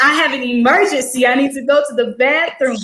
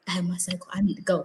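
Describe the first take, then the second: First: Slightly lifted, public announcement; mildly raised voice. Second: Low, hushed confidential voice; discreet undertone. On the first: Student answering a loud teacher, voice mildly raised. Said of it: "she was loud, so I was like". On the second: Student privately telling teacher about her cycle, low and hushed. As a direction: say it very softly, for one ear only. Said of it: "I didn't wanna go up to her and be like". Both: Retold or imitated.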